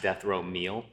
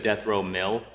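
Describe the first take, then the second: First: Meal is said with a long vowel, like meal. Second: Meal is said with a short vowel, like mill. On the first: This is how the question was asked. "I asked death row meal" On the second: Someone else said it this way. "he said death row mill"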